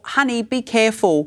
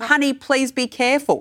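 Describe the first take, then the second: First: Put-on a gentle word to a stranger's kid; gentle warning. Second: Lifted, sing-song caution; gentle warning. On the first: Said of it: "a, a small". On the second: Retold or imitated. Parent gently cautioning someone else's child, lilting. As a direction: sweetly warn a child off. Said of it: "a gentle way of doing it".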